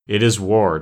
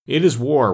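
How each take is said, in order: First: Firm declaration at normal pitch; fierce declaration. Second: Higher, louder, mildly savage reply; savage retort. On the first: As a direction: declare it with controlled force. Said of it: "declared Ak with flashing eyes". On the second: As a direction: throw it back with some savagery. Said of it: "returned the king savagely". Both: A narrator's reading.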